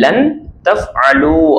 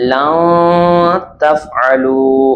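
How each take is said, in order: First: The n sound is fully pronounced. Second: The n sound is hidden through the nose. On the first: The speaker calls it wrong. "லன் தஃஅலு அதுதான் இருக்கு" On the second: The speaker calls it right. "மூக்கால் மறைப்பது எப்படின்னா"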